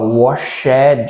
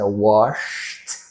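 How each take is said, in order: First: The ending is said as an extra syllable. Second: The ending is a short unvoiced t sound. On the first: The speaker calls it wrong. "Não vou falar washed, washed, nada disso" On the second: The speaker calls it right. "É washed"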